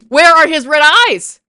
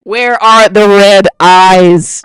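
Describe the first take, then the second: First: Loud, raised-pitch demand; outraged shout. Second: Slow, very loud demand without raised pitch; emphatic roar. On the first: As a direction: yell it as an exasperated demand. Repeats outraged question, yelling. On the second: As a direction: bellow each word slowly. Repeats question, slow emphatic roar. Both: Real, not acted.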